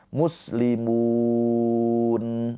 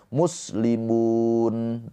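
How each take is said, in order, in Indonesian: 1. Huruf panjang itu ditahan empat harakat. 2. Huruf panjang itu ditahan dua harakat. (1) "empat harokat" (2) "dua harokat"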